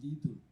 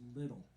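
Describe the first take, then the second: First: It is said in a French accent. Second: It is said in a plain English accent.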